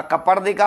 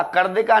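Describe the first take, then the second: First: कपर्दिका with the full क-प-र्दि-का syllables, stressed as the right answer; teacher stressing कपर्दिका as correct; correct form. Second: कर्दिका said without the प syllable, marked as wrong; teacher rejecting कर्दिका, said short; wrong form. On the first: Teacher giving students the right word, stressing कपर्दिका. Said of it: "कपर्दिका होता है". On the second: Teacher correcting a wrong answer, naming कर्दिका as incorrect. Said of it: "कर्दिका नहीं होता". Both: Shown as a demonstration.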